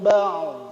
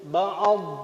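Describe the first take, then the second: First: The ain is followed directly by the final consonant. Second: An extra vowel is inserted after the ain. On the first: The speaker calls it right. "Cuman ainnya sukun" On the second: The speaker calls it wrong. "itu mah berlebihan, menyengajakan ngasih syakal ad"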